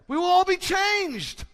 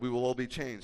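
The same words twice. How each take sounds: First: It is said loudly, with excited energy. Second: It is said flatly, without excitement. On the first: The speaker calls it right. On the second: The speaker calls it wrong.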